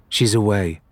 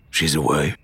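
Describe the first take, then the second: First: Said in the usual way. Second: Low, dull stunned echo of She's away; captain hearing his wife has left, dully. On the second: A narrator's reading. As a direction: repeat She's away flat and lower, stunned. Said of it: "he repeated dully".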